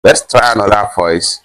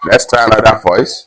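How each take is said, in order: First: Loud, processed voice-changer sound; voice changer effect. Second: Higher, altered filtered voice; voice changer effect. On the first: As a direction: run it through a voice filter. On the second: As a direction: pitch it up with a voice filter. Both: Shown as a demonstration.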